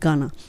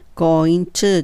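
First: The words blend into one reduced word. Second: Both words are said fully and separately. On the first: The speaker calls it right. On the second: The speaker calls it wrong. "going to とはあまり言わずに"

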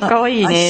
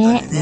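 First: It is said in her ordinary voice. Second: It is said in a put-on seductive voice.

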